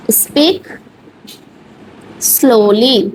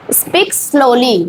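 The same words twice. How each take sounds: First: Teacher demonstrating how slow speech sounds; word by word. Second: Teacher modelling a phrase slowly. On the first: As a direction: speak rising, a long pause, then slowly falling. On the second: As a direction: Speak slowly said slowly as one phrase. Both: Shown as a demonstration. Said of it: "আস্তে আস্তে বলুন".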